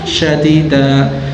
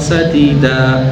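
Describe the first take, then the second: First: The word begins with an sh sound. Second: The word begins with a plain s sound. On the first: Speak words that are harsh. The speaker calls it wrong. "Kalau dibaca sok anu, sok fasyih gitu ya" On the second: Speak words that are right and good. The speaker calls it right. "Itu kalau sadida, dan itu asli ayatnya"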